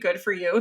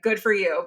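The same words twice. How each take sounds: First: It sounds sarcastic. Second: It sounds sincere.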